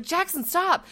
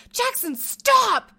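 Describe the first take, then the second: First: Raised warning. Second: High, loud, drawn-out scream of the name; screaming at a child. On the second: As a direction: yell it slowly across the store. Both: Retold or imitated. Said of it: "I'm, like, screaming in the store".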